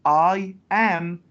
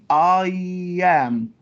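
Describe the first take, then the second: First: The two words are said separately, nothing added. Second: A y sound joins the two words. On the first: The speaker calls it wrong. "don't say I am" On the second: The speaker calls it right. "we add يا sound. So we say I am"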